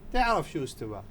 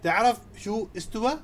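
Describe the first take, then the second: First: It is said as a statement. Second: It is said as a question.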